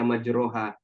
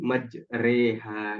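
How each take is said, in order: First: The second vowel is a back 'o' sound. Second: The second vowel leans toward an 'e' sound. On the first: This reading is not allowed here. The speaker calls it wrong. "nggak boleh kita baca majroha" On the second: This reading is required by agreement. The speaker calls it right. "Kita harus baca imalah"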